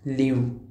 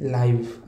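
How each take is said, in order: First: The vowel is a short 'i'. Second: The vowel sounds like 'eye'. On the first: To be alive. "दुसरा लिव्ह म्हणजे जगणे" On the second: Happening right now. "लाईव्ह म्हणजे क्रिकेटची लाईव्ह match"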